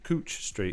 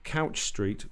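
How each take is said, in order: First: Couch has the vowel sound of 'oo'. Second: Couch has the vowel sound of 'owl'. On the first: The speaker is a local. The speaker calls it right. "Cooch Street is supposed to be" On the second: The speaker is a tourist. The speaker calls it wrong. "with an owl sound"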